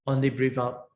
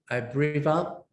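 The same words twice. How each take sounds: First: Only leaned on, the rest plain; stress on only. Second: Said in the usual way. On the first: Shown as a demonstration. Teacher shows students the emphasis, stress on only. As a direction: press the word only to show the emphasis. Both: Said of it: "you see the emphasis here".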